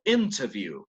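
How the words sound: The t after the n is clearly pronounced. "Para un británico"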